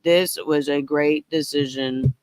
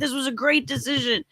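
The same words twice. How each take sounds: First: It is said flatly, with no emotion. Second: It is said with lively, excited emotion. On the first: The claim of happiness is not believable. The speaker calls it wrong. "Not like" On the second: The speaker truly feels happy about the choice. The speaker calls it right. "You should be ecstatic. I was ecstatic"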